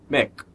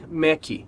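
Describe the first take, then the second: First: The word ends cleanly on the k sound. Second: An extra vowel sound follows the final k. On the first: The speaker calls it right. "E na verdade é Mac" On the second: The speaker calls it wrong. "A gente costuma ouvir Mac"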